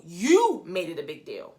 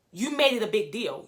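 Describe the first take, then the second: First: Drawn-out, emphatic "You" at the start; stress on YOU. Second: Said in the usual way. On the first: Real, not acted. Blaming the castmate for the fuss, stress on "You". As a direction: lean hard and long on "You". Repeats accusation, hitting "you.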